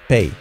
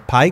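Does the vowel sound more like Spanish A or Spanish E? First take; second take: E; A. First: The vowel sounds like a Spanish E. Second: The vowel sounds like a Spanish A. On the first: The speaker calls it right. "Con E" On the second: The speaker calls it wrong. "En lugar de pay con A"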